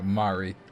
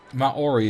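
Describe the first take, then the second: First: The word is said with the vowels run together. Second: The word is said with separate vowel syllables. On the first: The speaker calls it right. "but it's like Mari" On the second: The speaker calls it wrong. "Maori is not the pron- correct pronunciation"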